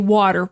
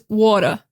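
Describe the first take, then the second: First: It is said in a standard American accent. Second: It is said in a New York accent. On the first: "I say water. Water is standard American English" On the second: "in New York, they're going to say something like water... You see how like small my mouth is?"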